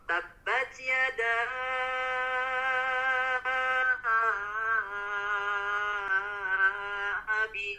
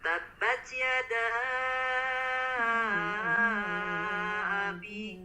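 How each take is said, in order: First: The vowel is stretched far too long. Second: The vowel is held for a moderate length. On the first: The speaker calls it wrong. "terlalu dipanjangkan" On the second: The speaker calls it right. "Cukup empat harokat"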